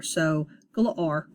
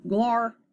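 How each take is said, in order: First: Said in the usual way. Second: Glar with the ar sound, said higher; glar modeled. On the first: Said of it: "When A R is together". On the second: Shown as a demonstration. Teacher modeling the word glar for students. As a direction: say glar clearly. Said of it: "it's gonna say R".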